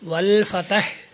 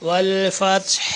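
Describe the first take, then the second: First: A vowel is sounded between t and h. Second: No vowel is sounded between t and h. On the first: The speaker calls it wrong. "വൽ ഫതഹ് എന്ന് ചിലർ പറയാറുണ്ട്. താഇന് ഫത്ഹായിക്കൊണ്ടല്ല" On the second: The speaker calls it right. "അത് അങ്ങനെ തന്നെ പറയാം"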